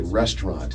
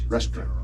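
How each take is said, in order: First: The middle 'au' sound is kept. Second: The middle 'au' sound is dropped. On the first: This is how younger people say it. "We always say restaurant" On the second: This is how older people say it. "People in their generation lots of times would, would say it more like restaurant"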